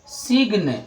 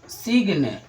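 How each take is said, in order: First: The word is said with a g sound. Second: The word is said with a g sound.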